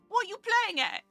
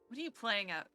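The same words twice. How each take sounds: First: It is said in an outrageous put-on accent. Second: It is said in a plain, normal voice.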